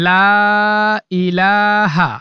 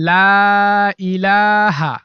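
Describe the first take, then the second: Both takes have the same delivery.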